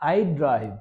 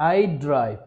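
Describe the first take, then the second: The two takes are said the same way.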